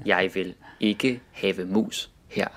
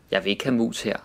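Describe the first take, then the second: First: "have" in full as two syllables, each word spelled out carefully; over-careful textbook reading of "Jeg vil ikke have mus her"; dictionary pronunciation. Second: Said in the usual way. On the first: Shown as a demonstration. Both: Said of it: "dictionary pronunciation".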